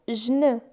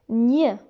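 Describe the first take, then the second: First: It is said as a j sound then n. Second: It is said as one nasal ny sound. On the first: The speaker calls it wrong. "G et N ne se prononcent pas jn" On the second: The speaker calls it right. "G et N se prononcent gn"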